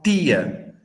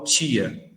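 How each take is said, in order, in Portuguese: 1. A palavra começa com um "t" simples. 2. A palavra começa com um som de "ch". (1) "Aqui, geralmente, as pessoas falam tia" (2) "Eu falo tia. ... um fonema a mais, né? Que é o tch"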